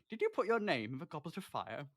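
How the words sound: It is said in a calm, quiet tone.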